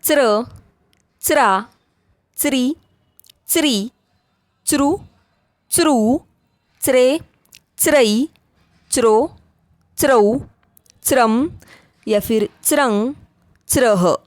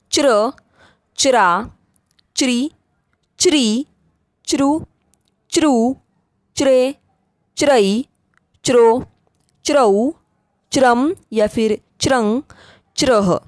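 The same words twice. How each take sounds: First: च्र recited with a "ts" onset, "tsra". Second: च्र recited with a "ch" onset, "chra". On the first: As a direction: say the च in च्र, च्रा as "ts". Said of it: "कभी-कभी हम च का उच्चारण". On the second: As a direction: say the च in च्र, च्रा as "ch". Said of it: "च भी करते हैं". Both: Shown as a demonstration.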